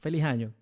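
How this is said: It is said in a Colombian coastal accent. The speaker calls it wrong.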